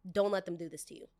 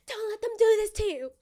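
First: Said in the usual way. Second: Squeaky high mocking repeat. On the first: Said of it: "repeated in a high mocking take". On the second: Mocking the boss's warning in a squeaky high voice. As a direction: pitch it way up, louder, mocking.

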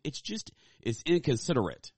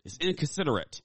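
First: Said in the usual way. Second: Higher quoted "It's inconsiderate."; viral video quote. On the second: Retold or imitated. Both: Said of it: "as one of my favorite viral videos said".

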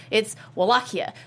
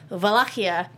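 First: Wallachia said with an English W; Wallachia, starting with a W sound; English pronunciation. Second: Wallachia said with a V, vuh-LAH-kee-uh; Wallachia, starting with a V sound; Romanian pronunciation. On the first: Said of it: "but it's actually Wallachia in Romanian". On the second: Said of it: "it's actually Wallachia in Romanian". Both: Shown as a demonstration.

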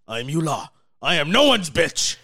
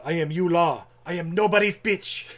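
First: Loud, higher evil emperor boast; cold rasping evil emperor. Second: Cold rasping evil emperor. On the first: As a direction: bellow it like a tyrant. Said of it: "greatest line in all movie". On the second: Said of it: "he stands up". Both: Retold or imitated.

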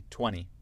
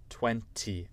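First: Twenty said as twenny; casual American twenty, like twunny; T dropped. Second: Twenty with a clear T, twen-tee; twenty said carefully as twen-tee; T pronounced. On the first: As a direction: skip the second T in twenty. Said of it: "Je saute le, le T là". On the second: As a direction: sound the second T in twenty. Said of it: "avec le T". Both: Shown as a demonstration.

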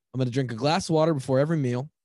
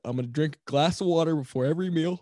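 First: Said in the usual way. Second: Words stretched by a yawn. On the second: Real, not acted. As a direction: say it mid-yawn. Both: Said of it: "Sorry, I'm yawning right now".

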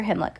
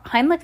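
First: Himmlich with a short i, like "him"; alternative pronunciation. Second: Heimlich with first syllable like "high"; pronunciation check. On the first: Reader unsure of the hospital's name, Himmlich said HIM-lick. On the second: Reader unsure of the hospital's name, Heimlich said HIGHM-lick. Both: Real, not acted. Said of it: "Heimlich or Himmlich".

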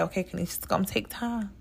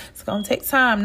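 First: Much softer, murmured to herself as self-talk; telling herself quietly. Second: Said in the usual way. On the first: Retold or imitated. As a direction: quietly reassure yourself. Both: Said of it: "where I'm like".

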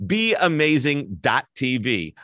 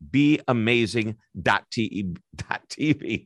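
First: "Be amazing dot T V" said slowly, word by word; careful correction. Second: "be amazing dot T E" tripped, fixed to "dot T V"; stumbling over words. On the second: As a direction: trip over "be amazing dot T E", then fix it. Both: Real, not acted. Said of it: "I'm stuttering over myself".

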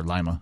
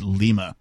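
First: "Lima" with its first syllable rhyming with "eye"; pronounced LYE-ma. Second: "Lima" with a long ee in the first syllable; pronounced LEE-ma. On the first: Host unsure of a penguin's name offers "Lima" pronounced LYE-ma. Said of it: "I'm not sure". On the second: Host reads out a penguin's name, "Lima" pronounced LEE-ma. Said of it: "or Lima, I'm not sure". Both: Shown as a demonstration.

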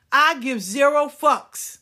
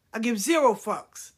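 First: Slow, loud, higher declaration; drawing out each word, louder; defiant. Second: Said in the usual way. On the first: Real, not acted. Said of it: "defiant repetition".

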